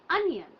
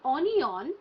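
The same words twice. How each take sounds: First: The last vowel is a reduced 'uh' sound. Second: The last vowel is a full 'oh' sound. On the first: The speaker calls it right. "it's onion" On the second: The speaker calls it wrong. "So it's not onion"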